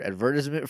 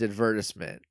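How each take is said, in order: First: The word is said in an American way. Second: The word is said in a British way.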